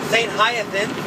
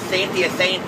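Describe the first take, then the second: First: The name is said with an English pronunciation. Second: The name is said with a French pronunciation. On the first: "I just call it Saint Hyacinth" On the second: "if you're pronouncing it en français"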